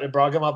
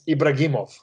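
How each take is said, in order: First: The name is said with a plain English accent. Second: The name is said with a Russian accent.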